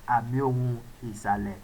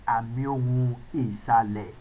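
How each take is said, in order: Both takes have the same delivery.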